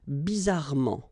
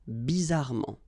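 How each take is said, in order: No difference in how they are said.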